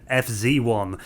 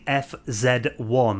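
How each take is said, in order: First: The Z is said the American way, zee. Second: The Z is said the British way, zed.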